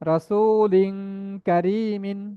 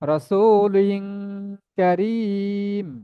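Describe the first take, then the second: First: The last word ends with an added -in sound. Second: The last word ends on a bare m sound. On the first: The word is read in its full original form. "মূল শব্দ আছে রাসূলিন কারীমিন" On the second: The reader stops at the end of the verse. "আয়াতের শেষ শব্দ হওয়ার কারণে আমি এখানে থামতেছি"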